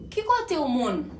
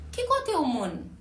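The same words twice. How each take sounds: The two takes are said the same way.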